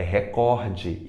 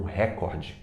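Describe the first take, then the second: First: Recorde as re-COR-de; stress on COR. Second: Recorde as RÉ-cor-de; wrong stress on RE. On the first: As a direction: lean on the middle of recorde. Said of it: "Ela é paroxítona". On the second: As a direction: hit the start of recorde. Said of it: "e não". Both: Shown as a demonstration.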